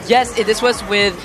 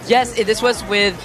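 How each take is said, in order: The two takes are said the same way.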